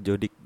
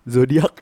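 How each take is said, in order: First: It begins with a j sound, ending -dik. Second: It begins with a z sound, ending -diak. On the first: This is the original form of the word. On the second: This is how Padang speakers say it.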